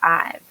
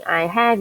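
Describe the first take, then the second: First: It is contracted into one syllable. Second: It is said as two full words. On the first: "you'd say I've" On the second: "instead of saying I have"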